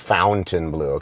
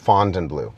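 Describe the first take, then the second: First: The first syllable sounds like 'fount'. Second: The first syllable sounds like 'font'. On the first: The speaker calls it wrong. "make sure you don't say Fountainebleau" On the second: The speaker calls it right. "almost pretend there's a D in there"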